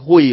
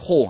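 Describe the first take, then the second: First: The word uses the colloquial everyday pronunciation. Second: The word uses the literary reading pronunciation. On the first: The speaker calls it wrong. "唔好读作火哦" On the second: The speaker calls it right. "这个火爱读作火啊"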